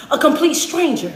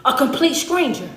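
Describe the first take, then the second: No difference in how they are said.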